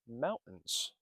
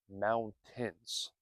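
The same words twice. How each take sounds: First: It is said quickly with sounds reduced. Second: It is said carefully with every sound full. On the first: "when we speak quickly, we say mountains" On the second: "instead of mountains"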